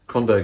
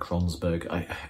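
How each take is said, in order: First: The name has no s sound in the middle. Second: The name has an s sound in the middle. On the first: The speaker calls it right. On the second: The speaker calls it wrong.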